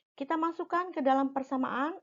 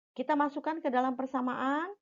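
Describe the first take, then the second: The two takes are said the same way.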